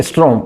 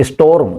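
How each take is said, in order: First: "storm" mispronounced as "strom"; wrong pronunciation. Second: "storm" as is-TORM, r after the o; correct pronunciation. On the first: Teacher showing what we wrongly say, "storm" turned into "strom". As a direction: say "storm" as is-TROM, r before the o. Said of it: "हम बोलते हैं storm". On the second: Teacher giving students the right form, "storm" pronounced is-TORM. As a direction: say "storm" with o first and r late. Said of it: "storm नहीं है". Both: Shown as a demonstration.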